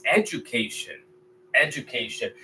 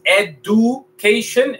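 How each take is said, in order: First: Education with the D broken into J, e-ju-kay-shun; correct pronunciation. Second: Education with a hard D, ed-u-kay-shun, slowly; wrong pronunciation. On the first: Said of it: "Este sílaba se quiebra aquí". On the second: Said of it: "porque no es education". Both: Shown as a demonstration. Teacher contrasting wrong and right pronunciation.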